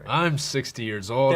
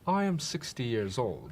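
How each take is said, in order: First: It is read in a rough truck-driver voice. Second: It is read in a put-on British accent. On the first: "Read it like a truck driver" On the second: "Why is he British?"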